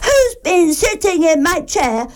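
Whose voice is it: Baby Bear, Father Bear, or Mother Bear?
Baby Bear. It is said in Baby Bear's crying voice.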